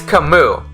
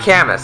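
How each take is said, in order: First: The name is said the French way. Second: The name is read like a Latin word. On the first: The speaker calls it right. "It's a French name" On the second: The speaker calls it wrong. "you think it's a Latin and not a French name"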